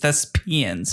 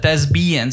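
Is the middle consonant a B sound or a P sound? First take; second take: P sound; B sound. First: The middle consonant is a P sound. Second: The middle consonant is a B sound. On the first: The speaker calls it right. "It's thespians. the P, not a B" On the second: The speaker calls it wrong. "You said thespians"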